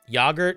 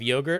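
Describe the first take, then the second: First: It uses the British pronunciation. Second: It uses the American pronunciation.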